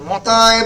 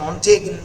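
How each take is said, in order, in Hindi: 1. इस नाम को g की ध्वनि के बिना बोला जाता है। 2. इस नाम को g की ध्वनि के साथ बोला जाता है। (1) "অনেকে মতায় বলে" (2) "অনেকে মন্টেগিন বলে, জি এর প্রোনাউন্সিয়েশন জেনারেলি হয় না"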